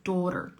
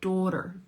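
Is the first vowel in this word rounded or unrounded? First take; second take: rounded; rounded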